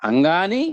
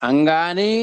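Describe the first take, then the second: No difference in how they are said.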